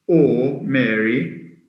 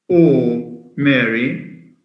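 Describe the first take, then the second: The two takes are said the same way.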